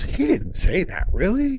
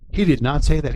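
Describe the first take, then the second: First: It sounds incredulous, like a surprised question. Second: It sounds flat and matter-of-fact, like a statement.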